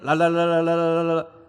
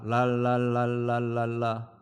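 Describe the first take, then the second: First: It is said more quickly. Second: It is said at a normal speed.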